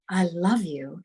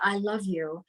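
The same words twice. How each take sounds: First: The words come out full, rich and resonant. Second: The words come out light, thin and clipped. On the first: The words are felt by the listener. The speaker calls it right. "when I say it from my full being" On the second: The words do not land with the listener. The speaker calls it wrong. "a tip tap of the words coming out"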